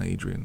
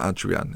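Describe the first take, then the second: First: The name is pronounced the English way. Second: The name is pronounced the Spanish way. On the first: The speaker calls it wrong. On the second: The speaker calls it right.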